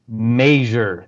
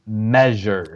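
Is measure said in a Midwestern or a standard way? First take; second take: Midwestern; standard. First: The word is said with a Midwestern pronunciation. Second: The word is said with a standard pronunciation. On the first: This is how people from the region say it. "somebody from the Midwest, they say measure" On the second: This is how people from the region do not say it. "They do not say measure"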